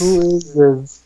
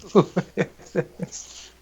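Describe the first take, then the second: First: Slow, puzzled, rising question; drawn-out surprise. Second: Slow breathy whisper through a laugh. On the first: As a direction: stretch it out in amused disbelief. Reacting to odd chat name. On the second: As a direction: whisper it again, half laughing. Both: Real, not acted.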